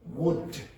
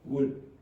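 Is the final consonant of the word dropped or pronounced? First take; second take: pronounced; dropped. First: The final consonant is clearly pronounced at the end. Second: The final consonant is left off the word. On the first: The speaker calls it right. "instead of would" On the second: The speaker calls it wrong. "you don't pronounce the last consonant"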